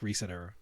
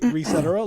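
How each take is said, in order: First: It is said as two words, 'reset' and 'era'. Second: It is run together, rhyming with 'et cetera'. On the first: "or you could say reset era like reset era" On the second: "you can say Recetera like et cetera"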